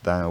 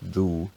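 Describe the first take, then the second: First: The word is said with its modern pronunciation. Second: The word is said with an older pronunciation.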